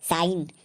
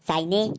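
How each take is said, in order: First: The word ends on the n with no vowel. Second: An extra vowel is sounded after the final n. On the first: The speaker calls it right. "इसको हम पढ़ेंगे साइन" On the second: The speaker calls it wrong. "इसको हम साइने नहीं पढ़ेंगे"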